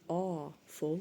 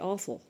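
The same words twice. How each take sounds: First: The first part 'awe' is drawn out and separate. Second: The word is said quickly as one blended unit. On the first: It seems full of awe and admirable. "like aw, it's full of awe" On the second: It is actually bad. "but it's actually awful"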